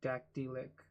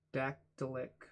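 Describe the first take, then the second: First: Dactylic with an ee in the middle; retried pronunciation. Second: Dactylic with a weak schwa in the middle; uncertain pronunciation. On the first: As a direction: say dactylic as DAK-tee-lik, carefully. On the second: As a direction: say dactylic as DAK-tuh-lik. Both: Shown as a demonstration. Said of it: "still probably not saying that right".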